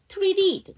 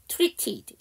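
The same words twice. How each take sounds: First: The middle t is softened and weakened. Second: The middle t is said as a clear t.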